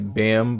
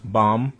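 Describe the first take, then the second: First: The vowel sounds like the one in 'bam'. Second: The vowel sounds like the one in 'bomb'. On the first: The speaker calls it wrong. "some people pronounce it, pronounce it Bam" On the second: The speaker calls it right. "it's pronounced Bomb for some reason"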